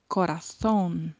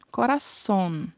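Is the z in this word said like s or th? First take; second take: th; s. First: The z sounds like th, tongue between teeth. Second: The z sounds like an s. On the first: "pode ser pronunciado com a língua entre os dentes" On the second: "uma das possibilidades de pronúncia seria falarmos corazón"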